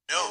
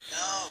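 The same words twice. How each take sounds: First: The word is said at normal loudness. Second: The word is said more quietly.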